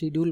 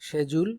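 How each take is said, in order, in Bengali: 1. মাঝের ব্যঞ্জনটি 'd' ধ্বনি। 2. মাঝের ব্যঞ্জনটি 'j' ধ্বনি। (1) "বাট শিডিউল বলাটা ঠিক না।" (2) "সঠিক উচ্চারণ হলো শেজুল"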